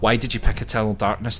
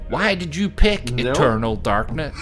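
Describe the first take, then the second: First: It is spoken in a put-on general American accent. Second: It is spoken in a put-on Southern American accent. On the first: The speaker calls it right. "That almost would have worked as American" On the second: The speaker calls it wrong. "That's a little too John Wayne-y"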